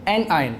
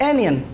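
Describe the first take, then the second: First: It is split into 'an' and 'eye-on' parts. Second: The middle sounds blend into a short 'yun' ending. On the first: The speaker calls it right. "इनकी दुरुस्त pronunciation ये है" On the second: The speaker calls it wrong. "अक्सर बच्चे जब पहली पहली बार इसको पढ़ते हैं तो वो इसी तरीके से इसको प्रोनाउंस करते हैं"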